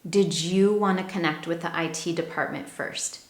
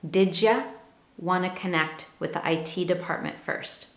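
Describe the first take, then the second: First: 'Did you' blends into a fuller 'dijoo' sound. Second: 'Did you' blends into a short 'dija' sound. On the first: "So I could also pronounce this as" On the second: "we hear that combination, J"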